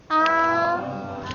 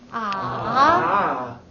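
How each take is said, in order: First: The pitch stays high and level. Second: The pitch dips low, then rises.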